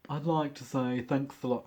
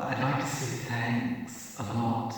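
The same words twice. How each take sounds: First: Drag queen voice. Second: Slow sassy drag queen take. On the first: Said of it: "that's my drag queen voice". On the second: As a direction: camp it up, drawn out. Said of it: "I've gotta get it right". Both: Retold or imitated.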